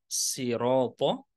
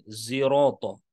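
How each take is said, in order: First: The word begins with a plain light s. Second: The word begins with a buzzing z sound. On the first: "bisa dibaca dengan menggunakan sin" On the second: "bisa di- dibaca dengan menggunakan zai"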